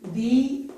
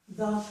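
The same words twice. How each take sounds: First: The vowel sounds like a long 'ee'. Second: The vowel is a weak 'uh' sound. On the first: The next word begins with a vowel sound. "this with an E pronunciation" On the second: The next word begins with a consonant sound. "I don't use E, instead I use a"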